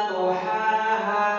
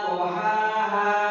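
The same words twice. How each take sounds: The two takes are said the same way.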